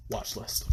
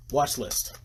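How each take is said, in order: First: Hushed, voiceless reminder; softly whispered recommendation; whispered repeat. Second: Said in the usual way. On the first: Real, not acted. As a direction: drop to a whisper.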